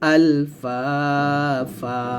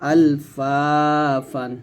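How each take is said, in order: First: The word ends with a long a vowel. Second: The word ends with an n sound. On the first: The reading stops at this word. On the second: The reading continues without stopping here.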